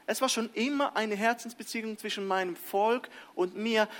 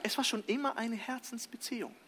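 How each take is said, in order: First: A light touch of God speaking. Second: Soft emphasis. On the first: Retold or imitated. God telling His people, lightly voiced. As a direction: lightly voice God's tender words. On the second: Shown as a demonstration. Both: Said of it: "will Paulus sagen".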